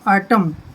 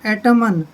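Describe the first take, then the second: First: The final n is silent after the m. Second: The final n is sounded after the m. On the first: The speaker calls it right. "एन बिल्कुल silent है" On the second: The speaker calls it wrong. "वैसे तो बनता है एटमन"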